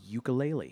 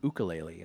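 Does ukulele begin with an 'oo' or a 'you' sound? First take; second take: you; oo. First: The word begins with a 'you' sound. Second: The word begins with an 'oo' sound. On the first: The speaker calls it wrong. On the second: The speaker calls it right.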